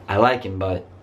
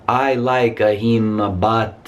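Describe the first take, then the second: First: The phrase flows smoothly and quickly without breaks. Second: The phrase is broken up by hesitations and pauses. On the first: The speaker calls it right. "is much smoother, faster" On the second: The speaker calls it wrong. "you don't have to say"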